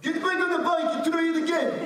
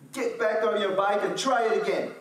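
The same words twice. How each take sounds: First: Put-on much higher, louder, fast Moroccan-accented dad. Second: Lightly higher, louder firm command; dad's plain order. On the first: Imitating his Moroccan dad telling him to ride again, Moroccan accent. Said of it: "But with Moroccan voice". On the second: Retold or imitated. A hint of the dad calling down from the hill, firm. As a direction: say it like a dad who won't come help. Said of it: "and he said".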